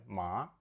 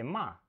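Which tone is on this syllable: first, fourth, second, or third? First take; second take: second; fourth. First: The syllable is said with the second tone. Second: The syllable is said with the fourth tone. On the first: It means hemp. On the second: It means to scold someone.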